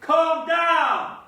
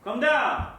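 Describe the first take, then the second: First: Very loud, high, impatient holler; full-throated yell. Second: Loud, raised call upstairs; shouted summons. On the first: Joe answers "What?", so yell it louder, exasperated. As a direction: bellow it upstairs at full force. Repeats the call after "What?. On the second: Ordering Joe downstairs, a firm shout. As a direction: shout it up the stairs. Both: Acted.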